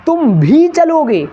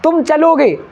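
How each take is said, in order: First: भी stressed, phrase high and slow. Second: Said in the usual way. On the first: Shown as a demonstration. Teacher showing class emphasis with भी, high and slow. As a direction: lean on भी in "तुम भी चलोगे". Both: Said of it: "तो कौन सा भी में कौन आ जाएगा".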